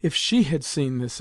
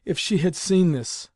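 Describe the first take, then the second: First: Mildly distressed lament, stress on "she"; exclaimed. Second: Higher, louder lament, "seen" stressed; tearful exclamation. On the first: Grandmother turning away in dismay, restrained exclamation. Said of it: "exclaimed Grandmamma". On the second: Grandmother wiping away her tears, heightened tearful lament. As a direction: let the dismay climb, pitched up on "seen". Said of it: "wiping away her tears". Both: A narrator's reading.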